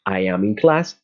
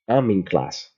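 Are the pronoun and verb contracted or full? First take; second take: full; contracted. First: I am is said as two full words. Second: I am is joined into one short word.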